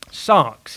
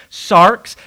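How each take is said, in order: First: Said in the usual way. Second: Sarx said louder, lifting at the end; clarified pronunciation. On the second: Shown as a demonstration. Preacher repeating Sarx for listeners who struggle with the accent, clearly pronounced. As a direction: say Sarx clearly for unaccustomed ears. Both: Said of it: "some people may struggle with the accent".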